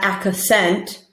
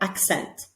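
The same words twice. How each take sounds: First: The k and s sounds are said apart. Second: The k and s sounds are blended together. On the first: The speaker calls it wrong. "Not accent" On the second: The speaker calls it right. "X, X altogether, accent"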